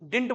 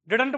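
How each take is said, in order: First: The middle d sound is dropped. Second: The middle d sound is clearly pronounced. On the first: "did not को क्या बोलते हैं, डिंट बोलते हैं" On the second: "डिडंट बोलते हैं"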